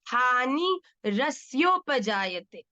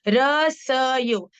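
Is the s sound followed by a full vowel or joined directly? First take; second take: joined; full vowel. First: The s joins directly to yo without vowel. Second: The s carries a full vowel before yo. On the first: The speaker calls it right. "पर यहाँ क्या है? आधा।" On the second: The speaker calls it wrong. "स क्या है? पूरा।"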